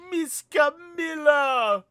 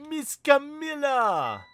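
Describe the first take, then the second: First: Put-on high, loud, drawn-out child's scream; a small girl screaming as her friend is taken; childlike scream. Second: Put-on high, slow childlike call, stretched out; a small girl calling her friend's name; child calling out. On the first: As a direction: scream her name like a frightened kid. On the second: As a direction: call to her like a little kid.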